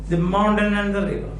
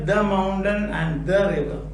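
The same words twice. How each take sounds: First: The word 'the' is unstressed and reduced. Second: The word 'the' is stressed and fully pronounced. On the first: The speaker calls it right. "They say the, the" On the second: The speaker calls it wrong. "We don't say"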